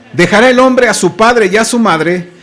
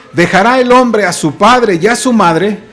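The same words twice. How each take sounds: No difference in how they are said.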